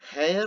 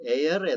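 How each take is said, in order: First: The word begins with an h sound. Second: The word begins with a vowel sound. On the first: The speaker calls it wrong. "ഹെയർ എന്ന് നമ്മൾ പറയാറില്ല" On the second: The speaker calls it right. "എയർ എന്നാണ് പറയുക"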